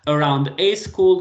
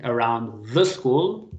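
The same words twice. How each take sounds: First: "a" said as a full "ay", louder phrase; slow and loud, "a" emphasized; stress on "a". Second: Slow, with "the" picked out firmly; "the" drawn out and emphasized; stress on "the". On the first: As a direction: punch "a" as the contrasting article. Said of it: "grammatically it's correct". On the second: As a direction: lean hard on "the" to correct. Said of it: "I'm saying". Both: Shown as a demonstration.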